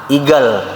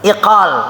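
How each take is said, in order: First: The middle consonant is a hard g sound. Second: The middle consonant is a deep q sound. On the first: This is the Yemeni dialect form. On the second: This is the standard Arabic form.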